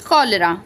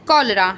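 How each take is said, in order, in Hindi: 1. यह शब्द k sound से शुरू होता है। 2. यह शब्द k साउंड से शुरू होता है।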